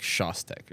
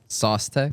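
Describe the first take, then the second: First: It starts with a sh sound, like shows. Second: It starts with an s sound, like sauce. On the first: "It's like Shostek or something" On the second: "the American way to say it"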